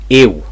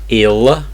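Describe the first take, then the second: First: The final L sounds like a W. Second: The final L is a clear L sound. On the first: The speaker calls it right. "So it's a W sound" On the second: The speaker calls it wrong. "Not ill"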